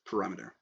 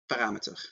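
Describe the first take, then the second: First: It is pronounced the English way. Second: It is pronounced the Dutch way. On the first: "the actual uh, pronunciation is parameter" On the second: "And also in Dutch"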